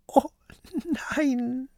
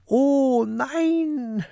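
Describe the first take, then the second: First: High, halting whimper; tearful, despairing little voice; sobbing. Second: High, drawn-out cry of dismay; long, high dismayed yell; sudden cry. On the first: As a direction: sob it out high and broken. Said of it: "schluchzt Peter". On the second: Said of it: "schreit Peter plötzlich". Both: A narrator's reading.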